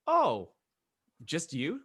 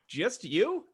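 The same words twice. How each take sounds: First: High, feigned surprise; playful rising question; mock surprise. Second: Higher, louder mock disbelief; hammed-up rising question; bigger mock surprise. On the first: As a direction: act surprised at the lone volunteer. Mock surprise at the raised hands. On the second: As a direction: push the incredulous question way up high.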